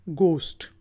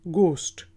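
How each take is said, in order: The two takes are said the same way.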